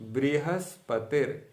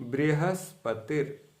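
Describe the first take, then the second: Both takes have the same delivery.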